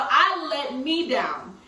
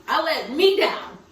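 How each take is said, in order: First: "I" pressed hard, very slow, falling; slow, deliberate "I let me down"; stress on I. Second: "me" lifted and slowed, rising; slow, pained "I let me down"; stress on me. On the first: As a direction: hit "I" in "I let me down". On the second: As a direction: lean on "me" in "I let me down". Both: Real, not acted.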